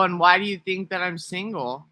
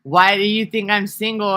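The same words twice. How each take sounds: First: A lighter touch of the put-on voice, higher; milder switched-up voice. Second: Higher, louder put-on voice; switched-up voice. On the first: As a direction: ease back toward the normal voice with a trace of the switch. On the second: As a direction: flip into a different talking voice, up and loud. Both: Shown as a demonstration. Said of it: "'Cause I can switch up how I talk".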